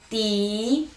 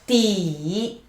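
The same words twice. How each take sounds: First: The pitch rises steadily from mid to high. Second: The pitch dips low and then rises. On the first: "The tone is rising" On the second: "falling, rising"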